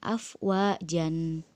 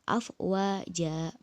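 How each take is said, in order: First: The word ends with an n sound. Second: The word ends on a lengthened a vowel. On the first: The speaker calls it wrong. "bukan afwajan" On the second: The speaker calls it right. "dibaca panjang dua harokat"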